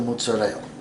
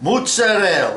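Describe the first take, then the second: First: It is said in a plain American accent. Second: It is said in a fake Italian accent.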